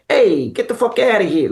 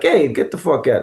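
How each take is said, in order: First: High, hammed-up New York archetype; broad New York caricature, brash and playful; cartoony New York accent. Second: New York accent, only slightly raised pitch; restrained New York demo; toned-down New York accent. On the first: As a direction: go full cartoon New Yorker, pitched up. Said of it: "start with the archetype". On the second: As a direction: play the New Yorker smaller, less cartoony. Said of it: "then you bring it down". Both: Shown as a demonstration.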